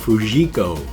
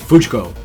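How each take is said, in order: First: The name is said the American way. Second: The name is said the Japanese way. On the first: The speaker calls it wrong. "what I would pronounce his name" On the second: The speaker calls it right. "the way Japanese words are really pronounced"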